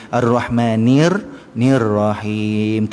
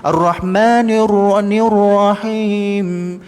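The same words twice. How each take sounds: First: "Nir Rahim" slow and low, the ra kept thin and light. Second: "Ar-Rahmanir Rahim" drawn out, high, with pouted rounded lips; pouted wrong reading. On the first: Teacher shows students the correct thin "Rahim". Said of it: "Tipis saja ra-nya". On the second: Teacher mocks a student's pouted "Rahim". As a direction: show the wrong way, mouth pushed forward on "Rahim". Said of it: "jangan kita membacanya dengan moncong". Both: Shown as a demonstration.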